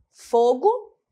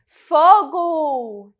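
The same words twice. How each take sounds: First: Said in the usual way. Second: Fogo! shouted as a louder alarm cry with a falling tune; alarmed exclamation. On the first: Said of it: "vocês conseguem perceber a diferença". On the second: Shown as a demonstration. Teacher demos the alarm cry Fogo! to her students. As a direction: call out Fogo! like a warning of a fire. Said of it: "Olha a entonação".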